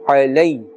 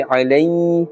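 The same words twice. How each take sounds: First: Said in the usual way. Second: Alay with the final glide held long; wrongly stretched leen. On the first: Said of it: "in the normal manner". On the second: Shown as a demonstration. Teacher shows what not to say, alay drawn out. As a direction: drag out the end of alay. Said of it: "Therefore we will not say alay".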